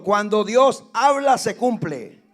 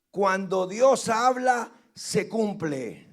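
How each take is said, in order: First: "cuando Dios habla" much louder, preaching force; louder repeat. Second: "Cuando Dios habla, se cumple" said slowly, each word weighed; slow emphatic. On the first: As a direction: repeat it louder, driving it home. (repetición más fuerte, con fuerza de predicador) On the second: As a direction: lay it down slow and firm. (énfasis lento en "Dios habla") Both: Shown as a demonstration. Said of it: "Lo repito".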